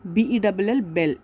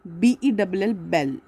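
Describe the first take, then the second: No difference in how they are said.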